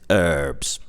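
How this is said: It is said with an American pronunciation.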